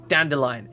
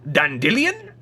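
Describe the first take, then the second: First: The word is said in a plain, calm tone. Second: The word is said in an excited tone. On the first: "would never at any point pronounce it" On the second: "always with an excited tone"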